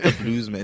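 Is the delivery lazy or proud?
lazy. It is said in a lazy, flat way. The speaker calls it wrong.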